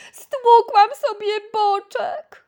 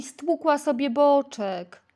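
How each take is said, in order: First: High, loud slow whining complaint; whimpering moan. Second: Said in the usual way.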